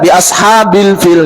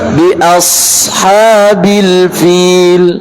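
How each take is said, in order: First: The s sound is cut short, not sustained. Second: The s sound flows on, sustained. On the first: The speaker calls it wrong. "Maka tidak dibaca" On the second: The speaker calls it right. "tapi alirkan"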